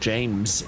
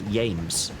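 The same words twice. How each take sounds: First: The name begins with a J sound. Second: The name begins with a Y sound.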